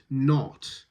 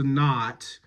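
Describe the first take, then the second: First: "not" with a rounded British o; forward rounded "not". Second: "not" with an open, flat American "ah". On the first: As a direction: push the lips forward on the o of "not". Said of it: "We need it forward and rounded". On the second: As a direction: open the vowel of "not" to "naht". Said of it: "very American and very open and very flat". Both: Shown as a demonstration.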